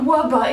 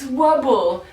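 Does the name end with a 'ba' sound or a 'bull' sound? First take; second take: ba; bull. First: The name ends with a plain 'ba' sound. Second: The name ends with a 'bull' sound. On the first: The speaker calls it wrong. "It is not Wubba" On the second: The speaker calls it right. "it is Wubble"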